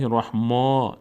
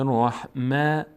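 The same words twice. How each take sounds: First: The vowel after the m sounds full and heavy. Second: The vowel after the m sounds thin and light. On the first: The speaker calls it wrong. "نمیگیم" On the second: The speaker calls it right. "پر خوانده نمیشه"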